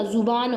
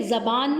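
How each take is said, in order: First: ज़ुबान said with a short u after the z, "zuban"; correct pronunciation. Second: ज़बान said with a short a after the z, the wrong way; wrong pronunciation. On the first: Teacher gives students the correct form, ज़ुबान said "zuban". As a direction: give ज़ुबान its u sound, clearly and correctly. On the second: Teacher shows students the wrong form, ज़बान said "zaban". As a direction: say ज़बान as "zaban", as the mistake to avoid. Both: Shown as a demonstration. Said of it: "ज़बान नहीं होता".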